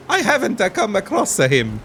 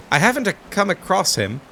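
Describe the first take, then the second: First: Said in the usual way. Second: Light mock Italian accent on "I haven't a come across him". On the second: Player voicing a villager with a sudden Italian accent. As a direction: lilt it like a hammed-up Italian. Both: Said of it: "I don't know why I went Italian".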